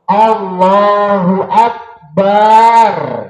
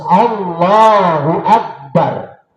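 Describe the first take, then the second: First: The vowel after 'b' is drawn out long. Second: The vowel after 'b' is kept short. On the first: The speaker calls it wrong. "Baknya juga sama dalam madzhab Maliki, kalau doa-doa Allahu Akbar nggak boleh" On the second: The speaker calls it right. "harus Allahu Akbar"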